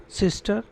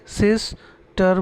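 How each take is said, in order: First: Said in the usual way. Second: सिस्टर broken in two, सिस then टर; split into syllables. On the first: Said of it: "सिस्टर बोलेंगे". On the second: Shown as a demonstration. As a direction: pause inside सिस्टर, after सिस. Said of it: "ये two syllable वाले शब्द हैं".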